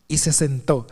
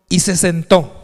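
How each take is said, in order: First: "Y se sentó" repeated lower with a pause before, each word weighed; emphatic repeat. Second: Said in the usual way. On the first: Shown as a demonstration. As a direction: drop the pitch and let "se sentó" sink in. (repetición enfática, más grave: "Y se sentó") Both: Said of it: "enfatiza mucho esa palabra".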